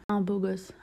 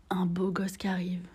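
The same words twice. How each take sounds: First: Said in the usual way. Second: Whispered in awe, as if he might hear; dreamy whisper, almost no voice; breathless whisper. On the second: Shown as a demonstration. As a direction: hush it like a secret crush.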